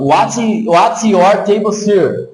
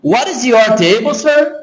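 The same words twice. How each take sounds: First: WHAT'S with a crisp TS, kept apart from YOUR; read as written. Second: WHAT IS YOUR run together with a tapped T, SIR rising high; connected American pronunciation. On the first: Teacher reading what is written for students, as spelt. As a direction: say "what's your table, sir" slowly as it is spelt. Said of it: "Tô lendo o que tá escrito". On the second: Teacher showing how Americans really say it, linked up. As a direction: link "what is your" into one word, lift on SIR. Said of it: "a pronúncia fica assim". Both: Shown as a demonstration.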